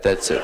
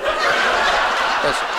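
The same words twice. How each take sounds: First: Said in the usual way. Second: Breathy laughing repeat; said through laughter. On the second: Shown as a demonstration. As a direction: let it dissolve into a laugh.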